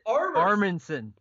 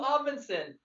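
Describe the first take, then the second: First: The first syllable has an added r sound. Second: The first syllable has no r sound. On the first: The speaker calls it wrong. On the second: The speaker calls it right.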